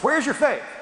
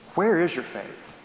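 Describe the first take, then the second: First: It sounds accusing and scolding. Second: It sounds warm and inviting.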